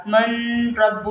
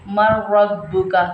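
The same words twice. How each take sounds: First: "मन रब्बु" with a long clear n before the r; unmerged noon. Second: "मर रब्बुका" with a doubled rolled r, no n; noon merged into ra. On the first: Teacher showing what not to read, n held in "मन रब्बु". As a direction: hold the n in "मन रब्बु". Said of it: "नहीं पढ़ना है". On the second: Teacher giving a second example, doubled r in "मर रब्बुका". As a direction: roll straight into the r of "मर रब्बुका". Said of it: "मन रब्बु नहीं पढ़ना है". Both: Shown as a demonstration.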